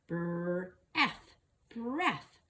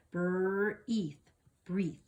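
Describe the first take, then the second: First: "Breath" sounded out with a short e; short vowel try. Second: "Breathe" sounded out with a long ee; long vowel try. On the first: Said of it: "Let's try the other way". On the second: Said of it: "Long sound first". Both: Shown as a demonstration.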